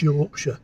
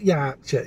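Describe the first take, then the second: First: "Yorkshire" with rounded "York" vowel; low, rounded "Yawksher" for "Yorkshire"; corrected pronunciation. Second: "Yorkshire" with open "Yaark" vowel; mimicked Yorkshire pronunciation. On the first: Shown as a demonstration. Partner corrects her, saying "Yorkshire" with an aw. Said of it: "it's Yorkshire". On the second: Partner corrects her, mimicking her open-vowelled "Yorkshire". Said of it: "It's not Yorkshire".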